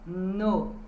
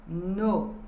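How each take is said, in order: First: The vowel is a closed O sound. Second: The same.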